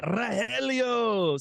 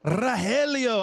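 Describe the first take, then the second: First: Drawn-out call. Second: Said in the usual way. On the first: Real, not acted. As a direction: stretch the name out slowly, calling across. Calls again, unsure he's heard.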